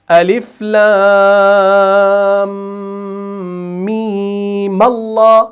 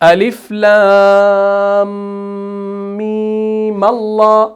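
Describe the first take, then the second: No difference in how they are said.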